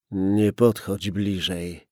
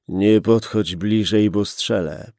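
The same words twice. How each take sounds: First: Slow "Nie podchodź bliżej", pushed out with effort; hoarse, strained. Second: Louder "Nie podchodź bliżej", stress on "Nie"; repeated threat. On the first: Gunman warning the policeman from inside, hoarse and strained. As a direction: squeeze each word out with effort. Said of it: "Głos był ochrypły i wydobywał się z wyraźnym wysiłkiem". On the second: Gunman repeating his warning to the policeman, louder threat. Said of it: "powtórzył mężczyzna". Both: Acted.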